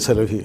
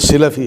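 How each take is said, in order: First: The first vowel is an 'a' sound. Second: The first vowel is an 'i' sound. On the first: The speaker calls it wrong. "हम कहते हैं ये सलफ़ी है" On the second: The speaker calls it right. "लेकिन वो सिलफ़ी है"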